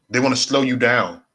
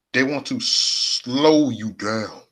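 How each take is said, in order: First: Said in the usual way. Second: Slow, elongated delivery with SLOW held long; drawn-out slow. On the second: Shown as a demonstration. Streamer warning chat about trolls, drawn-out slow. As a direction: stretch out SLOW, dragging the line.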